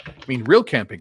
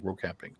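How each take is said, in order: First: Real said loud and punched; stress on real. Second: Said in the usual way. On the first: Shown as a demonstration. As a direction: hit the word real hard.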